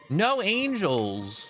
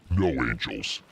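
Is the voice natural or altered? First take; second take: natural; altered. First: It is said in his natural voice. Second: It is said in a changed, devilish voice.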